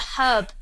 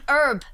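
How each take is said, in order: First: The word begins with an audible h sound. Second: The word begins directly with a vowel sound. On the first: The speaker calls it right. "It's got a H. It has a H. It's a herb" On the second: The speaker calls it wrong. "It's not an herb. What's an herb?"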